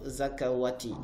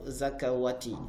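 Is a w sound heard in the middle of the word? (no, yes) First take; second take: yes; yes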